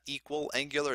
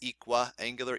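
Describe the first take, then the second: First: The first part sounds like 'equal', with an l. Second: The first part sounds like 'equi', without an l. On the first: The speaker calls it wrong. "It's not equal angular" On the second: The speaker calls it right. "it's equiangular"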